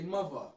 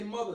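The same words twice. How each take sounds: First: It is said in a local New York pronunciation. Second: It is said in a standard, general pronunciation. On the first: "they say mother" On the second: "New York, they don't say mother"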